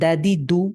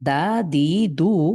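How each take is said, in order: First: The vowels are short and quick. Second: The vowels are drawn out long. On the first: The speaker calls it right. "কি পড়েছি?" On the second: The speaker calls it wrong. "এভাবে পড়ি নাই।"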